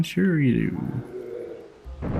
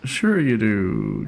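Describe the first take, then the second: First: Very slow, quieter sarcastic mutter; sarcastic, trailing off. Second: Slow, dry sarcastic sure you do; mock the praise, drawn out. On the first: Pretend. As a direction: drag it out, fading away. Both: Mocking the game's praise.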